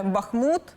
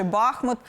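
First: Бахмут stressed at the end, -мУт; stress on last syllable. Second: Бахмут stressed at the start, БАх-; stress on first syllable. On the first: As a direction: hit the final syllable of Бахмут. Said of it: "до наголошування саме останнього складу". (наголос на останньому складі: Бахмут) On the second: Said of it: "на першому складі". (наголос на першому складі: Бахмут) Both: Shown as a demonstration.

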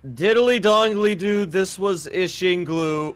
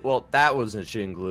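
First: Higher, slow showman voice; slow announcer outro. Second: Said in the usual way. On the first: Pretend. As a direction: draw it out like a host signing off. Hosting the video outro.

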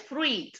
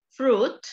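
First: "fruit" said with the I sounded, like "frweet"; wrong pronunciation. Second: "Fruit" said as "froot", no I heard. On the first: Teacher showing the mistake, "fruit" with audible I. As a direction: say "fruit" as "froo-eet", sounding the I. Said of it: "no es fruit". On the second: Teacher modelling the correct word, "Fruit" with silent I. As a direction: say "Fruit" on a single OO vowel, a little higher. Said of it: "la lleva en la vocal U". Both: Shown as a demonstration.

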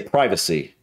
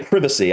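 First: Privacy as PRY-vuh-see, long i; own American pronunciation. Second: Privacy as PRIV-uh-see, short i; British pronunciation. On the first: Reactor giving his own way of saying it, American pronunciation. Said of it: "I would say privacy". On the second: Reactor telling British viewers how they would say it, British pronunciation. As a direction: say privacy starting like "privet". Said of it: "You would say privacy". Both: Shown as a demonstration.

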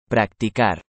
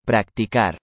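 The two takes are said the same way.

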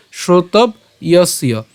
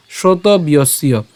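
First: "শ্রোতব্যস্য" slow, broken after b before ya; split pronunciation. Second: "শ্রোতব্যস্য" slowly run together, shroto-byosyo; joined pronunciation. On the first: Teacher breaking the word up, "শ্রোতব্যস্য" split after b. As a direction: say "শ্রোতব্যস্য" in parts, shrotob, yosyo. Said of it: "জফলা উচ্চারণের জন্য আমরা ইয়". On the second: Teacher saying it all together, "শ্রোতব্যস্য" as one word. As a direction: link b straight into y in "শ্রোতব্যস্য". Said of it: "একসাথে উচ্চারণ করব". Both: Shown as a demonstration.

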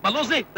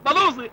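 First: Said in the usual way. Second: Chuckles through بلوزي; amused laughing repeat of بلوزي. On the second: Acted. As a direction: let بلوزي spill out mid-laugh.

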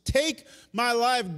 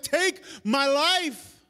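First: Slow, drawn-out loud plea. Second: Drawn-out, loud plea; slow despairing plea. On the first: Elijah begging God, slow exhausted plea. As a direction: stretch each word, exhausted. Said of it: "he goes". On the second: Elijah before the Lord, slow despairing plea. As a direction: beg slowly, worn out. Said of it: "He's like". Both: Retold or imitated.

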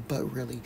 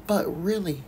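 First: "but really." repeated much softer; soft echo of "but really."; quieter echo. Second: "but" hit with a falling tune; "but really," with "but" stressed. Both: Shown as a demonstration.

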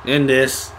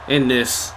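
The two takes are said the same way.

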